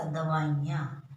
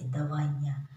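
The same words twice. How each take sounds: First: दवाइयाँ said as the wrong shop-sign spelling; a wrong example, read slowly and deliberately; wrong spelling shown. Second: दवाइयाँ said carefully with a short ई; a careful, corrected reading of दवाइयाँ; correct spelling shown. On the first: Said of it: "ये गलत है". (गलत दवाइयाँ, जैसा दुकान पर लिखा होता है) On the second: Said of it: "छोटी ई आती है". (छोटी ई वाला सही दवाइयाँ) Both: Shown as a demonstration.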